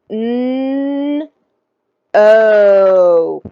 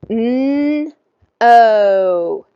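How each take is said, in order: First: The sounds are stretched out very slowly. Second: The sounds are said at a moderate speed. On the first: "slowly at first" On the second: "Let's do it again a little faster"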